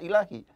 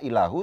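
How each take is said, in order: First: The word ends with an i vowel. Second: The word ends with a u vowel. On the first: "tidak ilahi" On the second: "tidak ilahu"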